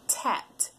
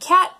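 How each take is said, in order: First: The word begins with a T sound. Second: The word begins with a K sound. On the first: The speaker calls it wrong. "they may say tat" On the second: The speaker calls it right. "Instead of saying cat"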